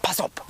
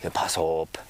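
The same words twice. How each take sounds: First: It is said urgently, as a warning. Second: It is said calmly, without any urgency.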